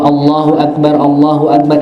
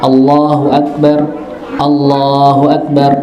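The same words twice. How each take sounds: First: The two phrases run together without a pause. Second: The two phrases are separated by a pause. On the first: "ini gabung" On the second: "Nah ini pisah namanya"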